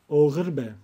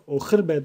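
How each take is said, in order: First: The middle consonant is soft, like a gliding g. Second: The middle consonant is a strong, pressed h. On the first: The speaker calls it right. "Türkçedeki yumuşak G gibi" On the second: The speaker calls it wrong. "Buradaki h sesini bastırmıyoruz. Oğirbe değil"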